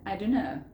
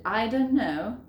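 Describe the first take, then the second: First: DON'T KNOW slurred into DUNNO; "don't" weakened to duh, joined to know; reduced form. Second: DON'T KNOW in distinct words; "don't" pronounced fully before know; full form. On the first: Teacher showing what natives say, DON'T KNOW as dunno. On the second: Teacher citing the long form for learners, DON'T KNOW in full. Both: Shown as a demonstration. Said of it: "ellos dicen".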